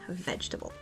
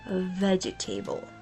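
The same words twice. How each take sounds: First: The word is shortened, with fewer syllables. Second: Every letter is sounded, giving four syllables.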